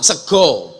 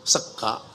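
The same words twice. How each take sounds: First: SEGO with a rounded O ending; "sego" with Javanese O; Javanese O vowels. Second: SEGA with an open A ending; "sega" with Ngapak A; Ngapak A vowels. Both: Shown as a demonstration. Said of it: "O sama A".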